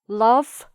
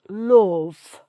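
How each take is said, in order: First: The vowel is an open, ah-like sound. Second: The vowel is darker, with lips pushed forward. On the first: "in R P would be" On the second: "in the northern accent it's"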